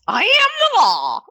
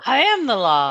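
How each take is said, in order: First: It is said in a put-on Muppet voice. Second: It is said in the speaker's normal voice.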